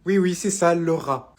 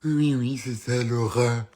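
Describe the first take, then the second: First: Said in the usual way. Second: Slow, drawn-out mimicry of the name; mocking echo. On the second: Mother mimicking the son's new girlfriend, mocking. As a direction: echo it mockingly, dragging out the words.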